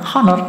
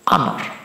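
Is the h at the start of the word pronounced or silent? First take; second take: pronounced; silent. First: The first h sound is pronounced. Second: The first h sound is silent. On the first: The speaker calls it wrong. "cara bacanya bukan honor" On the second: The speaker calls it right. "tapi honor. Jadi dia termasuk awalan vokal ya"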